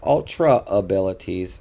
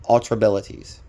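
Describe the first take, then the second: First: It is said as two separate words. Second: It is said as one merged word. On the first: The speaker calls it wrong. "Not Ultra abilities" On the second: The speaker calls it right. "It is one word, not two"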